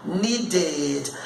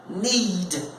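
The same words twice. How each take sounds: First: "needed" as nee-ded; added syllable. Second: Said in the usual way. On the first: Shown as a demonstration. Teacher demonstrating the past of need, added syllable. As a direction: sound the id ending of "needed". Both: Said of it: "de monossílabo para de sílabo".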